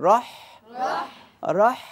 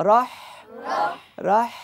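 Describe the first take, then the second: The two takes are said the same way.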